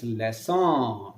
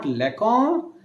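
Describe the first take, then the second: First: Leson said slowly with a soft s where the cedilla is; leson, s not k, drawn out; soft s sound. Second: Lekon said with a hard k sound in the middle; lekon, a hard k as in English; wrong hard k. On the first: Teacher demonstrates the correct s sound slowly. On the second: Teacher shows the wrong hard k, said plainly. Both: Shown as a demonstration. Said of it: "This makes the ka as sa".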